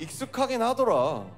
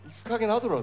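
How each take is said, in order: First: It is said in a normal voice. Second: It is said in a low, deep voice.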